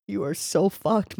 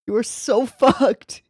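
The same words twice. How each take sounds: First: Said in the usual way. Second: Gleeful, laughing through it. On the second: Real, not acted. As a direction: laugh in the middle, falling on "fucked". Says it twice, laughing.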